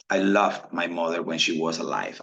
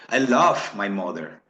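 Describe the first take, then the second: First: Loved clipped short with a quick final D. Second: Love drawn out slowly; long love. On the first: Teacher contrasting present and past, clipped loved. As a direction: cut loved off sharply. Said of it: "tiene que terminar en esa D". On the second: Teacher contrasting present and past, long love. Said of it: "La F suena muy larga". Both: Shown as a demonstration.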